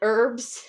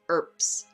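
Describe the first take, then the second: First: The word ends with a B sound. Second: The word ends with a P sound. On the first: The speaker calls it wrong. "I said herbs because that's how I say it sometimes" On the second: The speaker calls it right. "like with a P sound"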